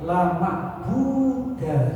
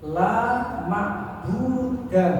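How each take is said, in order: First: The last word ends with a short "a" sound. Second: The last word ends with a short "a" sound.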